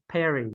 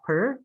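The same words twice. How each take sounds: First: "peri" said PAIR-ee; corrected two syllables. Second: "per" as one syllable, like purr; wrong vowel. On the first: Teacher correcting student, PAIR-ee sound on "peri". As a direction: open "peri" with pair, end on ee. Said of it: "it's peri". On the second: Teacher showing student the mistake, one-syllable purr sound on "per". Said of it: "this is not per". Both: Shown as a demonstration.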